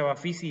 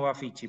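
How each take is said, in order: First: The middle consonant sounds like an s. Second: The middle consonant sounds like a ch. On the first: "el Bafisi se pronuncia Bafisi" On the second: "y no Bafichi"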